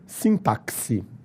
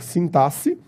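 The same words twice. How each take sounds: First: The x sounds like ks. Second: The x sounds like a plain s. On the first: "com o som de quis" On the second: "com o som de C"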